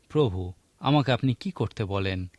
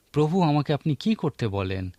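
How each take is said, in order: First: "আমাকে" lifted and held as the key word, rest lower; stress on me. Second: "কি করতে" pushed up and leaned on; weight the question on "কি করতে", the doing; stress on doing. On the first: Preacher showing the congregation the stress on "আমাকে". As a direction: lean on "আমাকে", ask it for yourself. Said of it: "এই প্রশ্নটির "আমাকে" শব্দটির উপরেও আমরা জোর দিতে পারি". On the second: Preacher showing his flock the stress on "কি করতে". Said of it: "কাজ করার উপর জোর দিতে পারি". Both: Shown as a demonstration.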